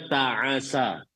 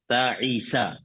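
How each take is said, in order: First: The vowel after the middle consonant is a. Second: The vowel after the middle consonant is i. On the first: "dan boleh juga" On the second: "harakat kasrah pada huruf ain"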